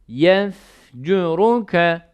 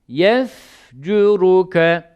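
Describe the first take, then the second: Both takes have the same delivery.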